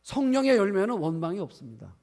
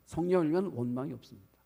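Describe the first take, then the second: First: Louder, higher, with weight on 성령의; emphatic declaration. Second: Said in the usual way. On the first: Real, not acted. Preacher to congregation, louder on 성령의. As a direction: proclaim it, hitting 성령의 hard.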